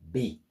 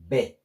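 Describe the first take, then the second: First: The vowel sounds like 'ee'. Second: The vowel sounds like 'ay'. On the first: The speaker calls it right. "but B, because of double E" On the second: The speaker calls it wrong. "not B"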